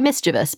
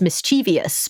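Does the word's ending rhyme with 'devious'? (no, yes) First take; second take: no; yes. First: The ending does not rhyme with 'devious'. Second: The ending rhymes with 'devious'. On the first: The speaker calls it right. "but it's actually mischievous" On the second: The speaker calls it wrong. "People often pronounce as mischievous because they think it rhymes with devious"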